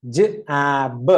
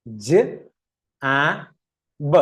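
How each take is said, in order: First: Sounds run closely together; faster blending. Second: Slow sounding-out. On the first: Teacher speeds it up for learners, sounds closer. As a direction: move quickly from one sound to the next. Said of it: "ഇനി fast ആക്കി പറയാം". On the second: Teacher starts reading a new word, slowly spaced sounds. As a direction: separate sounds with long gaps. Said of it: "വായിച്ചു നോക്കിയേ". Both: Shown as a demonstration.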